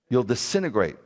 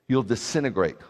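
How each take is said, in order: Both takes have the same delivery.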